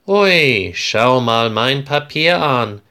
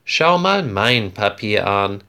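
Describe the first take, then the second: First: Excited. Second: Said in the usual way. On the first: Acted. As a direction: show off your paper to a friend, thrilled. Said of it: "sagt Florian aufgeregt". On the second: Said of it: "Andreas nickt und sagt".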